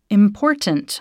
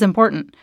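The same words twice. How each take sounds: First: The word is over-enunciated in a flat, robotic way. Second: The word is said quickly and casually. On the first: The speaker calls it wrong. "where I sounded too robotic" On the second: The speaker calls it right. "I think you just say it quickly"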